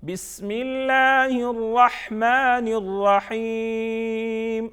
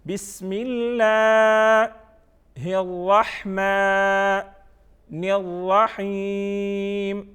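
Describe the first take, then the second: First: بسم اللہ running on into الرحمن without a pause; higher slow connected chant, الرحیم held long; recited joined together. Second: بسم اللہ held long, then a pause; slow separated chant, الرحمن and الرحیم stretched level; recited by parts. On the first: Teacher reading tasmiya whole, joined-up slow recitation. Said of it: "Tasmiya". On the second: Teacher giving the three parts of tasmiya, slow separated recitation. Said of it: "first one کیا ہے؟". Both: Shown as a demonstration.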